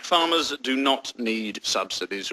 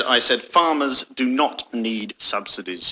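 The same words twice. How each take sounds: First: Slow, low and soft; deliberate statement. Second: Slow, low, pointed restatement; deliberate repetition. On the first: Spokesman stating policy to interviewer, slow and deliberate. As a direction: state it slowly, word by word. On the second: Spokesman repeating policy to interviewer, slow and pointed. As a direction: repeat it slowly as if to someone deaf. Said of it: "Do you need your ears syringing". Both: Acted.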